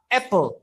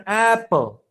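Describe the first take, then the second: First: "apple" with an open short A as in cat; English-style "apple", vowel not spelled out. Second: "apple" with the wrong first vowel, Indonesian-style; learner's faulty "apple", Indonesian vowel; mispronounced apple. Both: Shown as a demonstration. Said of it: "bukan apple".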